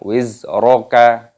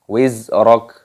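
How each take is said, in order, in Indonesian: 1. Kata ini berakhir dengan bunyi vokal tambahan. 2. Kata ini berakhir dengan konsonan mati. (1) "Jangan wizroka" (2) "dimatikan kafnya, disukun"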